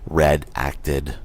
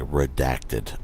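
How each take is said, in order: First: It is split into two words, red and acted. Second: It is said as one smooth word. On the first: The speaker calls it wrong. "not red acted" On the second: The speaker calls it right. "That's how you pronounce it"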